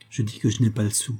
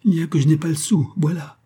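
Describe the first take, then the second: First: Said in the usual way. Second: Higher-pitched, despairing admission; desperate confession. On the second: A narrator's reading. Man confessing to avoid a break-up, desperate outburst. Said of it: "il déclara avec un accent désespéré".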